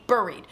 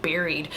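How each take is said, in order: First: "buried" said as BURR-eed; own pronunciation. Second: "Buried" said as BERR-eed; viewers' pronunciation. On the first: Storyteller shows viewers their own way, "buried" as BURR-eed. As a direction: say "buried" with the vowel of fur. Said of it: "I say buried". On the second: Storyteller tries the viewers' way, "Buried" as BERR-eed. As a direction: say "Buried" with the vowel of berry. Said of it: "trying to say the word the way you guys say it". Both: Shown as a demonstration.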